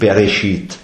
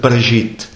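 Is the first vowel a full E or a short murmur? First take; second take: full E; short murmur. First: The first vowel is a full, clear E. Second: The first vowel is a very short murmur. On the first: The speaker calls it wrong. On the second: The speaker calls it right. "Also nur ganz kurz"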